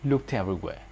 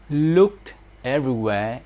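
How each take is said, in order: First: The final t links into the next word. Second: Each word is said separately, without linking.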